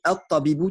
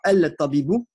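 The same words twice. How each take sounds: First: The L merges into a doubled T sound. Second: The L of the article is clearly pronounced. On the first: The speaker calls it right. "mais on dit el-tabibou tout simplement parce que le ta c'est une lettre shamsiya" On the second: The speaker calls it wrong. "On ne dit pas"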